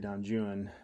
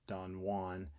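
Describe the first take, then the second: First: Juan is pronounced with English sounds. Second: Juan is pronounced with Spanish sounds. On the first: It follows the poet's rhyme scheme. "He was anglicizing it" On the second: It is the usual modern pronunciation. "we would probably say Don Juan"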